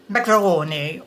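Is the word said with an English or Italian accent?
Italian. It is said with an Italian accent. "suddenly would go"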